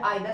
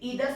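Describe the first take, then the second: First: The first vowel sounds like 'eye'. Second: The first vowel sounds like 'ee'. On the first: "या आइदर speak करो, both are correct" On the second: "आप इसे ईदर speak करो"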